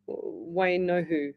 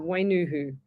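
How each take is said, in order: First: Wainohu, slowly, careful no in the middle; Wainohu, slow and deliberate, fixing the name; corrected name. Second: Wainuhu with a plain nu in the middle; Wainuhu, second syllable nu, said in passing; Wainuhu, the slip before the correction; first try at the name. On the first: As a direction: Wainohu spelled out in sound, syllable by syllable. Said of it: "There you go". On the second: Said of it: "I didn't say the surname again". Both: Shown as a demonstration.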